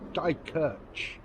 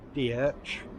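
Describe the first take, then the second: First: The name is said in full with every sound. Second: The name is said clipped, missing a middle sound. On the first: The speaker calls it right. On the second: The speaker calls it wrong.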